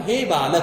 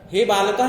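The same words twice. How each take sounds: First: बालक ending on the consonant "k"; the correct form बालक, closed on a "k"; correct vocative form. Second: बालका ending in a long open "aa"; wrong vocative ending. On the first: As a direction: say बालक with no vowel after the final "k". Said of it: "संबोधन में बोलते हैं". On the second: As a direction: say बालका with an added long final "aa". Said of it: "नहीं बोलेंगे हम". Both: Shown as a demonstration.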